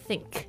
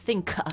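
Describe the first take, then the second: First: The word ends with a soft, barely released k. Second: The word ends with a strong, released k sound. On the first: The speaker calls it right. "是think" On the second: The speaker calls it wrong. "the end of the sound is not k it's not think"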